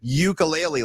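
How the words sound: It is said the common mainland American way. "mainlander, uh, Mister ... Caucasian guy say mispronouncing it ukulele, like the rest of us"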